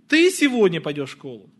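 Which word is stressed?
ты. The stress falls on the word ты. Asks whether it is you or someone else who goes. "Ты или кто-то другой?"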